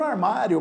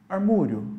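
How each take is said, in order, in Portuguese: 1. A vogal do meio é um 'ah' aberto. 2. A vogal do meio é um som 'oo'. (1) "tô falando armário" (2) "mas eu mudei só um pouquinho"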